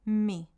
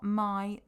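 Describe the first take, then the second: First: The vowel sounds like 'ee'. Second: The vowel sounds like 'eye'. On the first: The speaker calls it right. "the I in Spanish is pronounced as an I. So it's mi" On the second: The speaker calls it wrong. "it's not my"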